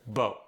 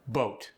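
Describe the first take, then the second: First: "Boat" with final T barely touched, boa'; Cajun soft T. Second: Said in the usual way. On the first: Shown as a demonstration. Coach showing softened Cajun final T. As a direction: let "Boat" end without the T. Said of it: "barely touched". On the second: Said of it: "final T and D are softened".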